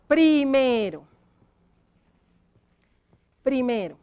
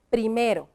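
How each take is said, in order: First: "Primero" drawn out while writing; slow dictation. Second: Said in the usual way. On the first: Shown as a demonstration. Teacher dictates the word to write, slow dictation. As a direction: stretch "Primero" slowly for writing. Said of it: "entonces vamos a escribir acá".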